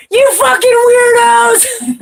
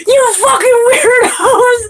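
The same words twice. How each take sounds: First: High, slow, drawn-out mock yell; hollering out the car window, much higher and louder. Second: High, slow, drawn-out mock yell; yelling it out the car window as he drives off. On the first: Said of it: "he'd be all". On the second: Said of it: "And he was like".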